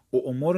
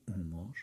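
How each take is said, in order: First: او مر with the hamza kept, a glottal stop before the u; teacher says او مر wrongly, with a glottal catch; wrong form. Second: او مر with a long smooth u and no glottal stop; correct form. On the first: Teacher showing students the wrong pronunciation, glottal catch kept. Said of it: "او مر نباید بگی، باید بگی او مر". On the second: Teacher giving students the correct pronunciation, smooth long vowel. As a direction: say او مر as a long u gliding into مر. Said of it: "باید بگی او مر". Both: Shown as a demonstration.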